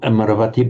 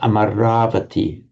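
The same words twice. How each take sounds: First: The vowel before the v is short. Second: The vowel before the v is long. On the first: The speaker calls it wrong. "not Amaravati" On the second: The speaker calls it right. "with the a lengthening before that v"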